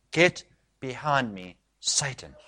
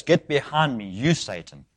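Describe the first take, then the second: First: Quiet, slow and measured rebuke; grave rebuke. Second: Aim it straight at the person; pointed rebuke. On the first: Acted. Jesus rebuking Peter to his face, grave quiet rebuke. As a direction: let each word land softly, with weight. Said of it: "he rebukes Peter. This is what he says". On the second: Shown as a demonstration. Jesus naming Peter as Satan, pointed rebuke. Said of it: "You can say it like this".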